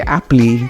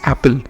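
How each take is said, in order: First: The final E is sounded as a vowel. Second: The final E is silent. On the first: The speaker calls it wrong. "you don't say Apple" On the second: The speaker calls it right. "it's Apple"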